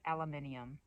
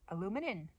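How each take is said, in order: First: The word is said with five syllables. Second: The word is said with four syllables. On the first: The speaker calls it right. "follow the British and say aluminium" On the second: The speaker calls it wrong. "That's how I said it"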